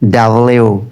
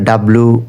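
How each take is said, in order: First: The name ends with a 'lyu' sound. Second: The name ends with a plain 'lu' sound. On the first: The speaker calls it right. "সঠিকটা হবে ডাব্লিউ" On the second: The speaker calls it wrong. "ডাব্লু বলি আমরা ... এটা ভুল"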